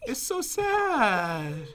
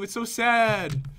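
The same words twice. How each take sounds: First: The voice sounds genuinely sad and sorry. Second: The voice does not sound sad at all. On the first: The speaker really feels sorry. "I believe you now" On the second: The speaker does not really feel sorry. "you don't sound very sad when you say that"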